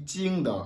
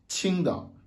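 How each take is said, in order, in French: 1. Il commence par un son j non aspiré. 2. Il commence par un son ch aspiré, avec du souffle. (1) "Il n'est pas dit Qingdao avec le J" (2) "le Qi, Qingdao"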